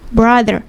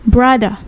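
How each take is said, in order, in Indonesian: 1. Bunyi r terakhir jelas diucapkan. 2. Bunyi r terakhir dihilangkan. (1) "kalau di Amerika ... R-nya di rolling seperti itu" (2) "But kalau di British ... we just say brother"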